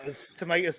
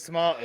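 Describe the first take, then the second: First: "tomatoes" said the American way, to-MAY-toes; tomayto pronunciation. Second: "tomatoes" said the British way, to-MAH-toes, with a little laugh; tomahto pronunciation. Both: Shown as a demonstration. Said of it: "the potatoes tomatoes saying".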